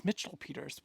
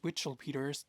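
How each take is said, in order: First: Said in the usual way. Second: Witchell Peters said with a W, as in "witch"; "Witchell Peters" with a playful W; Witchell on purpose. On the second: Shown as a demonstration. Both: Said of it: "That should be their real artist name".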